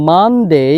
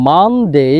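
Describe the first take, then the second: No difference in how they are said.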